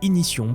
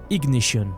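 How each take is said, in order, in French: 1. Le mot se prononce à la française. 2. Le mot se prononce à l'anglaise.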